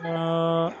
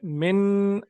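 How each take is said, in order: First: The word ends in a nasal vowel, no n. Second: The word ends with a clear, full n sound. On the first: The speaker calls it right. "आवाज नाक में जानी चाहिए" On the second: The speaker calls it wrong. "ये ऐसे नहीं पढ़ना इसको।"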